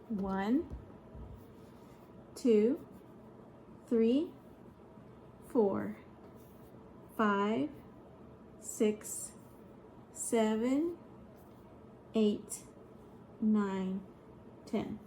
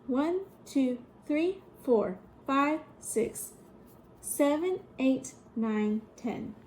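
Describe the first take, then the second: First: The numbers are counted at a slower pace. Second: The numbers are counted at a faster pace.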